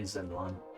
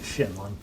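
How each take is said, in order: First: The name starts with a z sound. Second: The name starts with an sh sound. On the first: The speaker calls it wrong. "am I technically mispronouncing it?" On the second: The speaker calls it right. "I should be pronouncing it Shenlon"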